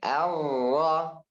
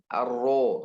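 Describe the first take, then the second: First: The vowel after r sounds like a. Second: The vowel after r sounds like o. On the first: The speaker calls it right. "Ra fathah" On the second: The speaker calls it wrong.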